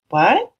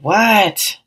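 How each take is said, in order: First: It sounds curious, like a genuine question. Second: It sounds annoyed and exasperated.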